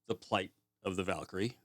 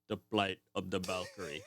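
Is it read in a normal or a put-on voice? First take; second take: normal; put-on. First: It is read plainly in a normal voice. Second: It is read in a put-on voice.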